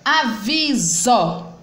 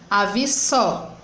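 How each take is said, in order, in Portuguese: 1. A consoante do meio é um som de Z, com zumbido. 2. A consoante do meio é um som de S sibilante. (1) "som de Z" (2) "botando o som do S"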